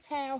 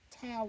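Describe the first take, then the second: First: The word is said as one syllable. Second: The word is said as two syllables. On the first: "I put one" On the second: "he puts two syllables to it"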